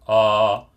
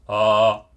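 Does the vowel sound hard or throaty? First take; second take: hard; hard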